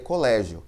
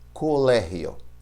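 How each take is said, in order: First: The g has its Portuguese sound. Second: The g has its Spanish sound. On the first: "Se eu estivesse lendo em português, leria colégio" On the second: "em espanhol, eu tenho que sonorizar como R"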